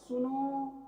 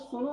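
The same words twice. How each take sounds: First: The final vowel is drawn out for long. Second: The final vowel is short and quick. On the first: "इस तरह से ज्यादा समय तक हम बोलते रहते हैं" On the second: "सुनो नहीं"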